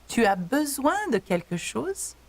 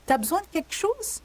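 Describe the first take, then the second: First: It is said slowly and fully. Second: It is said fast and reduced.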